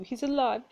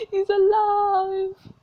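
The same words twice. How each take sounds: First: Said in the usual way. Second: Loud, high, drawn-out cry; hammed-up, stretched-out proclamation; dramatic exclamation. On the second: Dying mother reveals the father lives, dramatic exclamation.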